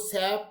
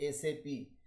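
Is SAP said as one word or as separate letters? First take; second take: one word; separate letters. First: It is said as one word, sap. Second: It is said as three letters, S-A-P. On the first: The speaker calls it wrong. "इसको सैप मत बोलिए" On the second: The speaker calls it right. "इसको बोलिए एसएपी"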